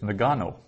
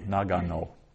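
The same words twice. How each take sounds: First: The first syllable is shortened and reduced. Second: All three syllables are about equally long. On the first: The speaker calls it wrong. "what have we done with that first syllable there? We've shortened it up" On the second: The speaker calls it right. "you have to pronounce each syllable with about equally"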